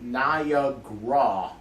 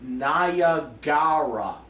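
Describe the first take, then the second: First: It is said with three syllables, ni-ag-ra. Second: It is said with four syllables, ni-a-ga-ra. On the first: The speaker calls it wrong. "not Niagara" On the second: The speaker calls it right. "It's actually spelled N I A G A R A. Like Niagara"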